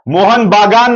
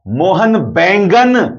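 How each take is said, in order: First: The second word is pronounced 'Bagan'. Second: The second word is pronounced 'Baingan'. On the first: This is the club's actual name. The speaker calls it right. "Mohan बागान नहीं साहब" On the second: It turns the name into the word for eggplant. The speaker calls it wrong. "Mohan बागान बोलने के लिए उसके बदले मोहन बैंगन बोल रहे हैं"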